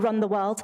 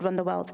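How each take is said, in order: First: The name is said slowly. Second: The name is said quickly. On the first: The speaker calls it right. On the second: The speaker calls it wrong.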